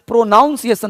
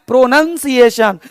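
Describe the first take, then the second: First: प्रोनाउंसिएशन quick and lower, with "naun"; wrong pronunciation. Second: प्रोनंसिएशन with "nun" in the middle, falling end; correct pronunciation. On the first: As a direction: toss out the error प्रोनाउंसिएशन quickly, "nown" inside. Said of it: "नहीं होता कोई word". (गलत उच्चारण प्रोनाउंसिएशन, जल्दी में "नाउन") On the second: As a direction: give the model प्रोनंसिएशन, ending in "shun". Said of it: "क्या बोलना है?". (सही उच्चारण प्रोनंसिएशन, बीच में "नन") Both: Shown as a demonstration.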